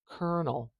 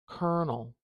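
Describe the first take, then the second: First: It is said with an 'er' vowel sound. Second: It is said with an 'er' vowel sound.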